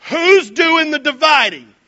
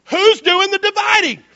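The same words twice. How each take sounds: First: Slow, louder, leaning on "Who's"; rhetorical question. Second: Much higher and louder, "Who's" punched; insistent repeat. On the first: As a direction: ask the crowd, stressing "Who's". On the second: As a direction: press the crowd for the answer. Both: Shown as a demonstration. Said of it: "Let me ask you a question".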